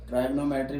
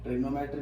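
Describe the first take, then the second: First: ट्राइगोनोमेट्री said with a long "try" at the start; ट्राइगोनोमेट्री opening with "tri" as in "try", then "gonometry"; long ai pronunciation. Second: ट्रिगोनोमेट्री said with a short i, "trig-o-no-metry"; ट्रिगोनोमेट्री with a clipped "tri" as in "trick"; short i pronunciation. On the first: Teacher showing students the other accepted way to say it, with a long ai. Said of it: "ट्राइगोनोमेट्री भी बोल सकते हैं". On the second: Teacher showing students one accepted way to say it, with a short i. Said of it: "ट्रिगोनोमेट्री भी कह सकते हैं". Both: Shown as a demonstration.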